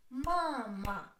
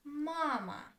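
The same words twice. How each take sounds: First: "Mama" drawn out in two syllables. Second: Said in the usual way. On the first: Shown as a demonstration. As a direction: split "Mama" into ma, ma for a learner. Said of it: "Two syllables".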